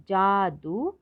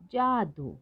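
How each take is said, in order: First: जादू split as जा, दू; syllable by syllable. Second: Said in the usual way. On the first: Shown as a demonstration. Teacher sounding out जादू for learners, syllable by syllable. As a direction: hold both syllables of जादू. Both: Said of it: "तो शब्द पढ़ते हैं".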